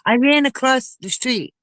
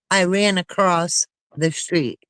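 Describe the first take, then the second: First: The phrase is said quickly, words running together. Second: The phrase is said slowly, words kept apart. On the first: The words sound merged into one. "if you talk fast" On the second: The words sound separate. "if I slow down"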